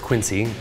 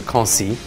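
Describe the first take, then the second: First: The name is said with an English pronunciation. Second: The name is said with a French pronunciation. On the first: "People often call it that" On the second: "the French pronunciation is Quincy"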